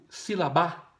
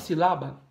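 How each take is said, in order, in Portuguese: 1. A tônica está na última sílaba. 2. A tônica está na primeira sílaba. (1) "Você fala sílaba ou silabá?" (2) "Você fala sílaba ou silabá?"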